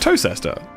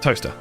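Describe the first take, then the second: First: It is said in three syllables, like 'toe-chester'. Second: It is said in two syllables, like 'toaster'. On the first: The speaker calls it wrong. "I made that mistake" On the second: The speaker calls it right. "That's pronounced"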